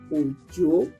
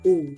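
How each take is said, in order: First: Low tone first, then a rising high tone. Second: Low tone on both syllables. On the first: "Do. Mi. ... The last one, mi, from down, up" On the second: "do, do, do, do. From up, down"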